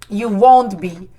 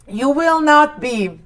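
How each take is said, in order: First: Will and not merge into one syllable. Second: Will and not are said as separate words.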